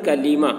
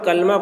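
First: A long 'ee' vowel sits between the l and m. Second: There is no vowel between the l and m. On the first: The speaker calls it right. "असल ये लफ्ज़ है कलीमा" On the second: The speaker calls it wrong. "बहुत सारे लोग कलमा पढ़ते हैं"

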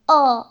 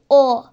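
First: The vowel sounds between a and o. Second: The vowel sounds like a rounded o. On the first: The speaker calls it right. "Onların ortası karışımı. Mesela şu" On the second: The speaker calls it wrong. "Mesela şöyle değil"

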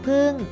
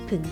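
First: The syllable is said on a falling tone. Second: The syllable is said on a low tone. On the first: "ผึ่งโทพึ่ง" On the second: "ผึ่งเอกผึ่ง"

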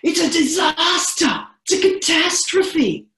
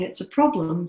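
First: It is said with intense, scary energy. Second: It is said calmly and neutrally.

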